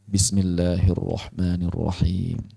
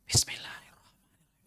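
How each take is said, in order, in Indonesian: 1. Itu diucapkan pelan dengan getaran pita suara penuh. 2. Itu dibisikkan tanpa getaran pita suara. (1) "dijaharkan lah. Cuma bacanya pelan" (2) "Itu berbisik ham semua"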